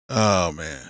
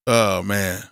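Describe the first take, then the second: No difference in how they are said.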